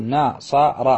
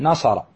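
First: ناصر split into slow na-sa-ra; teacher spelling out ناصر by its three syllables. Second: Said in the usual way. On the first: Shown as a demonstration. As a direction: sound out ناصر, each syllable held and separate. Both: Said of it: "تقول".

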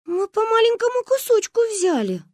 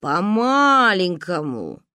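First: Put-on high small girls; high little girl voice. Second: Very slow, louder drawl. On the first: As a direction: plead like a child. Girls excuse themselves. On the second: Acted. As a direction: stretch it out doubtfully. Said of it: "протянул папа".

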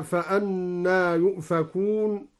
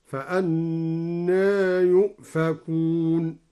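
First: Said in the usual way. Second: Slow chanted tartil with فأنى slightly inclined toward e; recited with taqlil. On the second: Shown as a demonstration. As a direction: intone فأنى with the alif leaning toward e. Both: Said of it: "هكذا".

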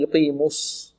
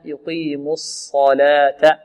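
First: Soft يقيم الص- with lips pursed on the saad; early lip rounding. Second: Slow يقيم الصلاة, lips released after mu for the saad; unrounded saad. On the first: Teacher showing the mistake, lips wrongly rounded. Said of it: "لا نقول". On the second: Teacher correcting the mistake, saad without rounding. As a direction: keep lips neutral on the s of الصلاة. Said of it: "لا نضم الشفتين في الصاد". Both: Shown as a demonstration.

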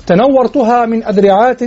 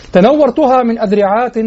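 First: إلقاء شعر؛ نبرة صاعدة على تنورتها؛ ارفع الصوت على تنورتها كالمنشد؛ إنشاد تنورتها بنبرة صاعدة. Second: إلقاء شعر؛ تنورتها تُنشد بنبرة صاعدة؛ أعد إنشاد تنورتها بالوزن؛ إنشاد تنورتها بنبرة صاعدة. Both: Shown as a demonstration. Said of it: "طبعًا مع إثبات".

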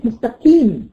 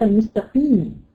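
First: مستقيم said with a light k for the q; qaf softened to kaf. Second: Said in the usual way. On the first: Shown as a demonstration. Teacher showing beginners' broken qaf, said as kaf. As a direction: flatten the ق of مستقيم into ك. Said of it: "ما ينفعش يبقى كاف أبدًا". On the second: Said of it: "في خطأ تاني بيقع فيه المبتدئين".

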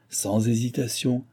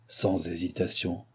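First: Slow, raised dictation of an oath; measured ritual demand; commanding. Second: Slow, soft, lowered repeat; hushed, deliberate ritual response; submissive echo. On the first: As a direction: spell out the condition deliberately. President dictates, initiate echoes the oath. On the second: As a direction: accept the oath quietly. Initiate repeats the president's words. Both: A narrator's reading.

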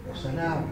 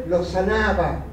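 First: Soft echo. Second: Said in the usual way. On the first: Acted. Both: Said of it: "repeats phrase as echo".

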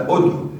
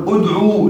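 First: ادعو said short, udʕu, final waw dropped; ادعو with no long vowel at the end, the right way; correct form. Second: ادعو said with a long final waw, udʕuu; ادعو with the long final vowel kept, the wrong way; wrong form. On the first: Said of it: "احذف الواو". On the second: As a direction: stretch the end of ادعو into a full long u. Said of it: "لا تقل ادعو". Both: Shown as a demonstration.

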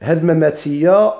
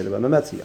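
First: مماتية ending in a clear "ya"; final ya with fatha. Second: مماتي with a plain long i and no ya sound; مماتي ending flat on the i; final ya silent. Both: Shown as a demonstration.

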